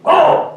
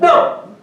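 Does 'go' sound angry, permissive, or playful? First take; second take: angry; playful. First: It is shouted loudly and angrily. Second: It is said playfully, half-pushing, half-teasing. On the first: Get out. "your wife is shouting" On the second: Do not leave. "That means do not go"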